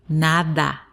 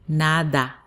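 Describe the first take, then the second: First: The word is unhurried and the d is clear. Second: The same.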